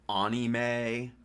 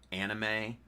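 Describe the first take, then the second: First: It is pronounced in an affected, pretentious way. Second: It is pronounced in the ordinary everyday way. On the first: The speaker is showing off. The speaker calls it wrong. "pronounced it anime" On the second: This is how a normal person says it. The speaker calls it right. "didn't pronounce it anime"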